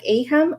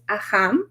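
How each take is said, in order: First: It is pronounced with English sounds. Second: It is pronounced with Spanish sounds. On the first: "the pronunciation in English is like AHAM" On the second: "In Spanish is AHAM"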